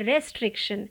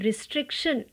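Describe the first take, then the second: First: The first vowel is an open 'e' sound. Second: The first vowel is a short 'i' sound. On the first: The speaker calls it wrong. "इसको भी लोग कहते हैं रेस्ट्रिक्शन" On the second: The speaker calls it right. "आपको कहना है रिस्ट्रिक्शन"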